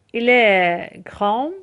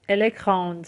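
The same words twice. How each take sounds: First: کرام ending on a nasal vowel, no D; French masculine "کرام" with mute d; silent final D. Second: کراند closing on an audible D; French feminine "کراند", final d released; D fully pronounced. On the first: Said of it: "دش تلفظ نمیشه". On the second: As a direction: sound the D at the end of کراند. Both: Shown as a demonstration.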